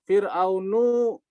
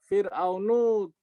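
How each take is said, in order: Both takes have the same delivery.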